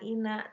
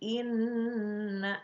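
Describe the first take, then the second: First: The n sound is short and single. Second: The n sound is held long and doubled. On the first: The speaker calls it wrong. "jangan ina" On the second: The speaker calls it right. "tapi inna"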